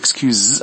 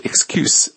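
First: The word ends with a voiced z sound. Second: The word ends with a voiceless s sound. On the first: It is the verb meaning to forgive. "注意最后那个S 发的是z 的音，浊辅音，表示原谅" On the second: It is the noun meaning a reason given. "最后那个S 是发的清辅音是s"

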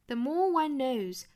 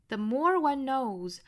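First: It is spoken in a British accent. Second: It is spoken in an American accent. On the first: "英音发法" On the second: "美式发法"

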